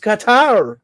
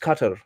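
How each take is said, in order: First: The word sounds like 'ka-taar', second vowel long. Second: The word sounds like 'kuh-tur', both vowels short. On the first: This is how a Punjabi speaker habitually says it. "I pronounce is कतार" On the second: This is how the name is properly pronounced. "It is actually pronounce is कटर"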